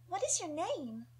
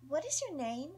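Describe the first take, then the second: First: Put-on high, playful young girl's question; curious little girl. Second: High, cute rising question; playful little girl. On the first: Young Nita curiously asking a stranger's name, cute. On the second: Acted. Young Nita asking a stranger's name again, playful. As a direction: ask it again, sweet and curious. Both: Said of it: "sound curious, playful and cute".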